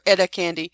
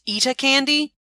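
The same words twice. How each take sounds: First: The name is said in a plain American accent. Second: The name is said in a British accent. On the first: The speaker calls it right. "I'm gonna call her" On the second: The speaker calls it wrong. "kind of like with a British accent"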